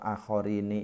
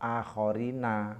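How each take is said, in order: First: The final syllable ends with an 'i' vowel. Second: The final syllable ends with an 'a' vowel. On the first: It keeps the rhyme with the previous line of the poem. "Tetapi di sini dibaca kasroh" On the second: It follows the usual grammatical rule. "nunnya dibaca fathah menjadi akhorina, mestinya seperti itu"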